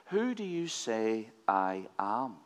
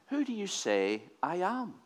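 First: "Who do you say I am?" said slowly and a bit softer; slow, grave repeat of the question; slow weighty question. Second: Asked up high, stress on "who"; a raised, curious ask; curious question. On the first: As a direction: let "who" hang, slow and deliberate. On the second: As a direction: pitch "Who do you say I am?" higher, leaning on "who". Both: Shown as a demonstration.

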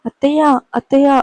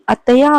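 First: Raised, higher call for help; mild narrated shout of attayya; calling out for mother-in-law. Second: Louder called attayya, rising at the end; mild narrated call, cut short by a hand; calling out again. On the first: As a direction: cry out to the mother-in-law downstairs. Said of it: "అంటూ అరిచింది కీర్తి". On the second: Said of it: "అని పిలుస్తుంటే". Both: A narrator's reading.

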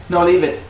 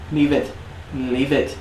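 First: Firm no, leave it; firm command. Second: Said in the usual way. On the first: Real, not acted. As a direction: tell the dog to leave it. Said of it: "commanding the dog". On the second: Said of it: "repeated command to dog".

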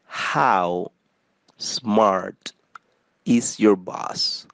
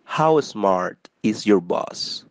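First: "How" ... "smart" ... "is your boss?" with a pause after each of the first two words. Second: Said in the usual way. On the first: Shown as a demonstration. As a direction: split "How smart is your boss?" into slow separate chunks. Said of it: "teacher splits the phrase word by word". ("How", pausa, "smart", pausa, "is your boss?" palabra por palabra) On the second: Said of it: "teacher repeats the phrase for learners".

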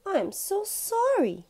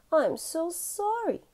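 First: Much higher, slow pleading apology; pleading sorry. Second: Much higher, slow pleading apology; a guilty child asking forgiveness; pleading sorry. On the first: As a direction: beg forgiveness like a guilty child. Albie confesses. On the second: Albie apologises again. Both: Acted.

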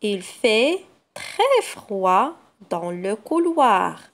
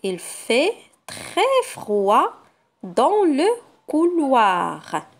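First: Slower again, each word separated; patient slow reread. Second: Put-on slow reading for children; slow sentence reading. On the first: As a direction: reread the sentence word by word for the children. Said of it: "Je refais la lecture de la phrase". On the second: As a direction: read slowly and clearly. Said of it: "Je passe à la deuxième phrase". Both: Shown as a demonstration.

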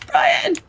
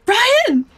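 First: Higher, more desperate call. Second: Loud call. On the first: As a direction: call his name again, higher. Calling louder second time. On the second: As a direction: call his name across the room. Calling out to Brian. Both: Real, not acted.

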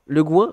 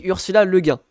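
First: «Le Guin» dit «le gwine», avec le son gw; Le Guin à l'anglaise. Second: «Le Guin» dit «le guin», nasal comme «gain»; Le Guin à la française. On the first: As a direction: prononce «Guin» comme «gwine». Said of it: "Tout le monde dit Le Guin, non?". («Le Guin» avec «gwin» à l'anglaise) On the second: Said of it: "sachez que je le dis comme ça". («Ursula Le Guin» avec «Guin» nasal) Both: Shown as a demonstration.

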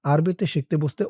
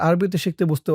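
No difference in how they are said.

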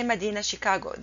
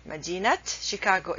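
First: مدينة said "madina" without t, fast into شيكاغو; wrong pronunciation, t dropped. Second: مدينة said "madinat", final t sounded before شيكاغو; correct linked pronunciation. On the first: Teacher shows the wrong way, مدينة pronounced "madina". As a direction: leave the t off مدينة before شيكاغو. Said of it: "this is a wrong way to pronounce it". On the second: Teacher shows the right way, مدينة pronounced "madinat". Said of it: "is the right way to pronounce it". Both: Shown as a demonstration.

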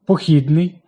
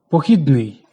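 First: Похідний as похідни́й, last syllable hit, said slowly; meaning "marching", so stress the end; наголос на останньому складі. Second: Похідний as похі́дний, middle syllable hit; meaning "derived", so stress the middle; наголос на другому складі. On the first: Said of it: "від похід". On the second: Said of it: "походить від чогось". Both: Shown as a demonstration.

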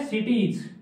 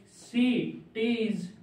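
First: Said in the usual way. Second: cities drawn out slowly in two separated parts; cities broken in two for learners; syllable by syllable. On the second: Shown as a demonstration. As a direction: dictate cities very slowly, pausing before the last syllable. Breaks dictated word into syllables.

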